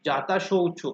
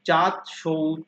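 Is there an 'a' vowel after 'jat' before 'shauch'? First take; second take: yes; no. First: An 'a' vowel follows 'jat' before 'shauch'. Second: No vowel follows 'jat' before 'shauch'. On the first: The speaker calls it wrong. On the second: The speaker calls it right.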